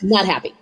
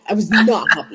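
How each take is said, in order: First: Said in the usual way. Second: Emphatic "not"; stress on NOT. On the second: Retold or imitated. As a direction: punch the word "not" a little harder. Repeats it with added emphasis.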